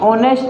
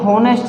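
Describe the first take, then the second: First: The word begins with a vowel, no h. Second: The word begins with an h sound. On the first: The speaker calls it right. "ये आपकी ऑनेस्ट होती है" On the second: The speaker calls it wrong. "ये हॉनेस्ट नहीं"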